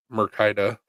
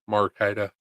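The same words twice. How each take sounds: First: "Mercaida" with a mer- first syllable; "Mercaida", first vowel reduced to "mer"; unsure pronunciation. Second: "Marcaida" with an open mar- first syllable; "Marcaida", first vowel a full "ah"; alternative pronunciation. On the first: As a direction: say "Mercaida" starting like "mur". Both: Real, not acted. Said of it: "however you say it".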